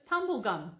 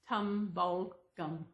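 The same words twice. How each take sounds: First: It is said like 'tumble' followed by 'gum'. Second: It is said as 'tum-bul' followed by 'gum'. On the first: The speaker calls it wrong. "The way she pronounced it was T U M B L E G U M" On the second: The speaker calls it right. "It's Tumblegum. T U M B U L G U M"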